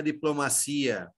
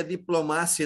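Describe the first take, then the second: First: "diplomacia" stressed on CI, di-plo-ma-SEE-a. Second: "diplomácia" stressed on MA, di-plo-MA-sya. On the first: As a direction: shift the beat to the I of "diplomacia". ("diplomacia" com tônica no I, di-plo-ma-CI-a) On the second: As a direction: say "diplomácia" with MA strong and -cia short. ("diplomácia" com tônica no MA) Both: Shown as a demonstration. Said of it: "O i não está acentuado".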